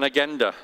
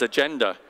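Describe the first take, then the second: First: It is said with a Swiss German pronunciation. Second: It is said with an English pronunciation. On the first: "most Swiss people would call an agenda" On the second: "In English, the word is agenda"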